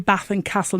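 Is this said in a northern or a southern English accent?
northern. It is said in a northern English accent. This is how the speaker naturally talks. "I say Bath and Castle"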